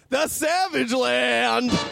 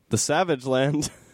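First: It is said loudly, with lots of energy. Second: It is said flatly, with little energy.

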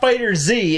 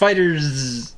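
First: The final Z is said as a separate letter. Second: The ending is said as one word, like fighters. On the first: The speaker calls it wrong. "It's not FighterZ" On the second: The speaker calls it right. "There's no space there. It's FighterZ"

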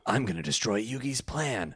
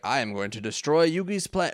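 First: It is said in a Kaiba impression. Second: It is said in a plain voice.

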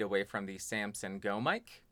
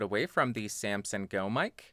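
First: The voice is about two feet away. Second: The voice is about one foot away. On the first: "About 2 feet away" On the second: "Now I'm about 1 foot away"

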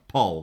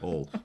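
First: The vowel sounds like the one in 'Polly'. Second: The vowel sounds like the one in 'ball'. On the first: The speaker calls it right. "like Polly" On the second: The speaker calls it wrong. "the way I said that sounded a bit like Paul"

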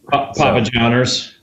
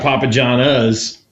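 First: The last word ends with a hard 'er' sound. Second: The last word ends with a soft 'ah' sound. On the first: "It was definitely a hard ER" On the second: "the A ending"

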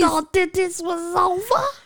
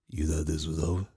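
First: It is said in an imitation of Felix's voice. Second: It is said in a voice not like Felix's.

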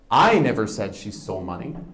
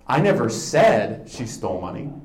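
First: The word 'I' is stressed. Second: The word 'said' is stressed.

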